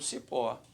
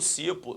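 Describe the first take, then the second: First: The stress is on the last syllable. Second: The stress is on the first syllable. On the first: The speaker calls it right. "é uma oxítona" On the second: The speaker calls it wrong. "Não"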